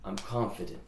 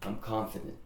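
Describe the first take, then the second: The two takes are said the same way.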